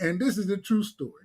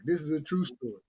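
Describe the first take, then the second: First: Said in the usual way. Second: Quiet aside. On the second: Real, not acted. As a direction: lower and much softer, tossed off.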